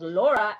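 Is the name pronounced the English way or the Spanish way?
English. The vowels are pronounced English-style. The speaker calls it wrong. "Laura is not Laura"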